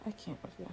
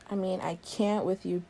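First: Whispered under the breath; barely audible, voiceless aside; exasperated whisper. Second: Said in the usual way. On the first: Acted. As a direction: mutter it to yourself, fed up. Muttered aside, then repeated aloud.

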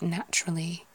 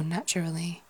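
First: "naturally" squeezed to NATCH-ruh-lee; syllables run together. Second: "naturally" in four syllables, NATCH-er-uh-lee; syllables all sounded. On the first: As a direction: swallow a middle syllable of "naturally". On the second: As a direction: give every syllable of "naturally". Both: Shown as a demonstration. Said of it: "the syllables at the end".

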